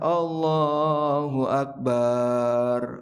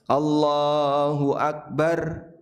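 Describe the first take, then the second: First: The vowel in 'bar' is drawn out long. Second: The vowel in 'bar' is kept short. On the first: It means God is a drum. The speaker calls it wrong. "Ini salah fatal" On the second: It means God is the greatest. The speaker calls it right. "Barnya pendek"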